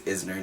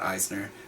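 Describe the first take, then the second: First: The name begins with a short 'iz' sound. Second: The name begins with a long 'eye' sound. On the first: The speaker calls it right. "I think it's Isner" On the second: The speaker calls it wrong. "not Eisner"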